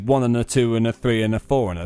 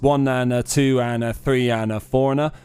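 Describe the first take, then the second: First: The counting is spoken at a brisk speed. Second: The counting is spoken very slowly. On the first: "That's the actual proper speed" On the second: "That's dramatically slowed down"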